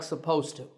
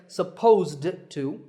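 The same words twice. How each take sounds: First: The D at the end of supposed is dropped. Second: The D at the end of supposed is pronounced. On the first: "we drop that D sound in natural speech and we say it like supposed to" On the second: "it's difficult to say supposed to"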